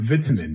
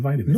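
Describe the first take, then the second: First: Vitamins is said with a British pronunciation. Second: Vitamins is said with a North American pronunciation. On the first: "the British say vitamins" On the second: "Instead of vitamins"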